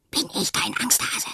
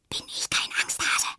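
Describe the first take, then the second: First: Higher whispered echo; a tiny voice whispers it back. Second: Whisper. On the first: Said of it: "flüstert es". (flüsternd als Echo, höher) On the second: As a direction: whisper it bravely. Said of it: "flüstert sie". (flüsternd) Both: A narrator's reading.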